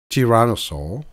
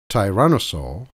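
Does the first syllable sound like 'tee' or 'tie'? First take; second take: tee; tie. First: The first syllable sounds like 'tee'. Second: The first syllable sounds like 'tie'. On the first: "T or Ty" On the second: "T or Ty"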